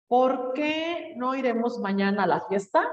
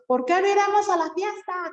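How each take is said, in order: First: Said in the usual way. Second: High, loud exclamation, like annoyed; ¿Por qué no iremos a la fiesta? exclaimed much higher and louder; as if angry. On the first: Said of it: "fíjate cómo dice". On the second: Shown as a demonstration. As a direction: exclaim it with mock anger. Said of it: "Como enojados".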